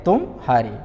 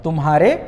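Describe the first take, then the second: First: तुम, pause, then हारे falling low; two separate words. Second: तुम्हारे with no break inside; joined as one word. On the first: Teacher showing different pauses, तुम हारे said split. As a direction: put a gap between तुम and हारे. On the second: Teacher showing different pauses, तुम्हारे said joined up. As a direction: run तुम्हारे together as a single word. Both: Shown as a demonstration. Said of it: "विराम अलग-अलग ले रहे हैं".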